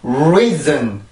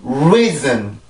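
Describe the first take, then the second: No difference in how they are said.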